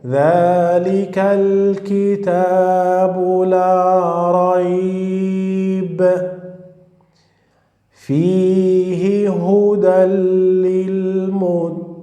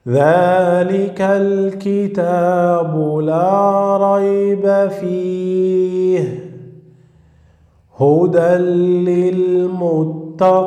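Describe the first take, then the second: First: There is a pause right after 'la rayb'. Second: There is a pause right after 'fihi'.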